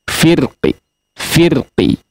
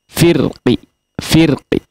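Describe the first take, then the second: Both takes have the same delivery.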